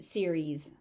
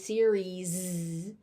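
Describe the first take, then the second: First: The final sound is light and slight. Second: The final sound is strongly emphasized. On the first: The speaker calls it right. "it's just series. It's just a light sound" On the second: The speaker calls it wrong. "it's not a emphasized series"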